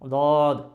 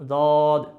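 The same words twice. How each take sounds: Both takes have the same delivery.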